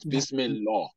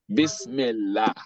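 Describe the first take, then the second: First: The L sound is thick and heavy. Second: The L sound is thin and light. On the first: The speaker calls it wrong. "Not Bismillah" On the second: The speaker calls it right. "anytime Kesra is coming before it, is that lam is going to be pronounced la"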